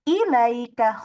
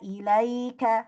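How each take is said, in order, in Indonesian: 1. Suku kata pertama diangkat dan didorong ke atas. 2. Suku kata pertama tetap datar, tidak diangkat. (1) "ilaika jangan mengangkat huruf hamzah. Ilaika khata" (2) "ilaika hakada"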